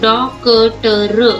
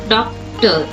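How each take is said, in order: First: A full vowel follows the k sound. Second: The k joins the t with no vowel. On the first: The speaker calls it wrong. "अगर क पूरा होता है तो हम डॉक्टर इस तरह से पढ़ते थे" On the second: The speaker calls it right. "क आधा दिया है इसलिए उच्चार भी आधा है"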